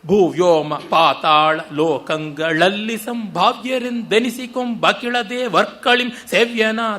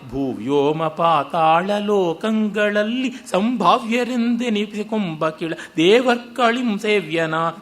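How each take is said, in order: First: Breaks follow the metre, splitting words apart. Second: Breaks fall at the boundaries between words. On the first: The meaning of the words gets distorted. The speaker calls it wrong. "ಶಬ್ದ ನಿರಪೇಕ್ಷವಾಗಿ" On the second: The meaning of the words stays intact. The speaker calls it right. "ಹಾಗಲ್ಲದೆ"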